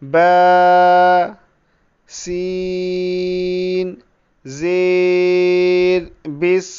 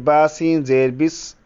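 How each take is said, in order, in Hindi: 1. पहला अक्षर 'ba' पूरी तरह खींचा हुआ है। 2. पहला अक्षर 'ba' छोटा और झटके से बोला गया है। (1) "बा की मिक़दार को पूरी तरह खींचेंगे" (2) "ये गलत है"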